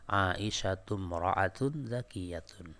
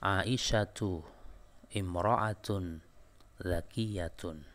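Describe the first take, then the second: First: The first two words run together as one. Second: The first two words are pronounced separately.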